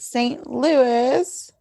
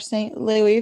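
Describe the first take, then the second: First: It uses the usual non-Canadian pronunciation. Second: It uses the Canadian pronunciation.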